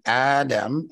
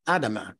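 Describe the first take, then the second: First: "Adam" cut short with no final vowel, AH-dum; plain English "Adam", two syllables; the usual "Adam" he rejects; Adam without ending. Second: "Adama" said as a verb form, ending in ah; Adama with final a. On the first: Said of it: "I didn't say Adam". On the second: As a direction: say "Adama" with a clear final vowel, ah-dah-mah. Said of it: "notice how I'm pronouncing his name". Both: Shown as a demonstration.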